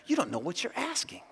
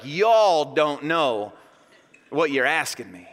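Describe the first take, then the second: First: Hushed, higher-pitched reply; quiet, restrained reading of a reply; soft answer. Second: Slow, lower Southern drawl; drawn-out Southern "y'all". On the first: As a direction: answer them softly. Reads Jesus's answer softly. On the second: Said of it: "whipping out his southern drawl". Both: Acted.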